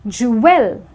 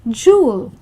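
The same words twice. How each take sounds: First: The word is said with a W sound. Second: The word is said without a W sound. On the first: The speaker calls it wrong. "because of the W sound" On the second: The speaker calls it right.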